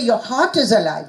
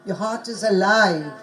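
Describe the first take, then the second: First: The stress falls on the word heart. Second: The stress falls on the word alive. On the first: The speaker calls it wrong. "you don't say" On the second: The speaker calls it right.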